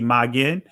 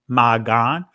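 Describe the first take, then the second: First: The second vowel sounds like 'e'. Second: The second vowel sounds like 'a'. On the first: This is the later, commonly used form. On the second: This is the ancient form of the word.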